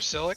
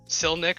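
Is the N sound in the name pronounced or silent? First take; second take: silent; pronounced. First: The N sound is left out of the name. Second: The N sound is pronounced in the name. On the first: The speaker calls it wrong. "Silic would imply that the N is silent" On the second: The speaker calls it right. "It is Silnic"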